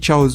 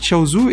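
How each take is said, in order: First: The name ends on the 'z' consonant. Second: The name ends with a final 'u' vowel. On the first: This is how it is said now. "et maintenant je dis Chaoz" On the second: This is how it was said in childhood. "Quand j'étais petit, je disais toujours Chaozu"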